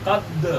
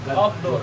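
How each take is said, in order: The two takes are said the same way.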